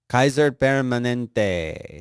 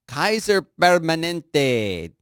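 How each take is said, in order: First: Kaiser Permanente drawn out at normal pitch; slow savoring. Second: Kaiser Permanente said high and slow, relishing it; savoring the name. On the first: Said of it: "That is a good name". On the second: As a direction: drag out Kaiser Permanente lovingly. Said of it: "I love that name". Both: Shown as a demonstration.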